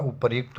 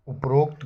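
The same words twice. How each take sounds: First: उपर्युक्त with ryu, "upar-yukt"; correct form. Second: उपरोक्त with o, "up-rokt"; wrong form. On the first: Teacher giving the right word, yu glide in उपर्युक्त. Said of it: "उपर्युक्त होता है". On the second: Teacher flagging the wrong word, o sound in उपरोक्त. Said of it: "उपरोक्त गलत होता है". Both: Shown as a demonstration.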